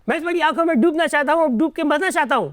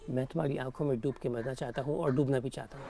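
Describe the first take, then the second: First: It is said in a happy tone. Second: It is said in a romantic tone.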